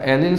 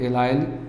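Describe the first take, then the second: First: The last syllable ends with a short 'il' sound. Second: The last syllable ends with a long 'ile' sound. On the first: "इसे बोला जाता है एलिल समूह" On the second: "या इसी बोलते हैं एलाइल"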